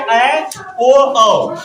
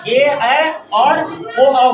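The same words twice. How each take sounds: First: Said in the usual way. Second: ए, ऐ and ओ each stretched very slow; very slow vowel demo of ए ऐ ओ; drawn-out vowels. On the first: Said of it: "उच्चारण स्थान बनता है". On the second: Shown as a demonstration. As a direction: stretch out every vowel so they can hear it. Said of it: "इसका देखिए बनता कैसे".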